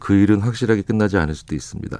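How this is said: It is said in a faint, shrinking voice.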